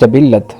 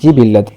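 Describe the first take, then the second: First: The first vowel is 'a'. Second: The first vowel is 'i'. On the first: The speaker calls it wrong. "लफ्ज़ बोलते हैं" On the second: The speaker calls it right. "दुरुस्त लफ्ज़ है जिबिल्लत, जीम के कसरा के साथ"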